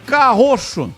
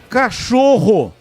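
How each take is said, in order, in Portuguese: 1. Os sons de r e ch estão trocados. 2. Os sons de ch e r estão na ordem. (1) "ele falava carroxo" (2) "é cachorro"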